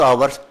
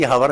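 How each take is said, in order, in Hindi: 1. यह शब्द स्वर ध्वनि से शुरू होता है। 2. यह शब्द h ध्वनि से शुरू होता है। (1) "एच साइलेंट हो गया जी" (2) "अरे लिखते तो हावर ही है"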